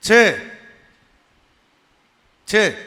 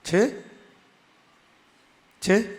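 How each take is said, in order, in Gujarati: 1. અંતે અવાજ નીચે આવે છે, વિધાનની જેમ. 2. અંતે અવાજ ઊંચો જાય છે, પ્રશ્નની જેમ. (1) "અહીં પૂર્ણ વિરામ આવી ગયું" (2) "એ અટાણે પ્રશ્નાર્થ થયો"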